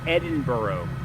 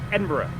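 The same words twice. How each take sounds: First: The word is said in separate, distinct parts. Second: The word is run together as one unit. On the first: The speaker calls it wrong. "I kept saying Edinburgh" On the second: The speaker calls it right. "it's all, like, one word"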